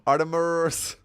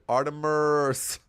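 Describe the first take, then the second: First: The name is said with an American pronunciation. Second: The name is said with an American pronunciation.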